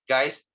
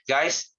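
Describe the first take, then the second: Both takes have the same delivery.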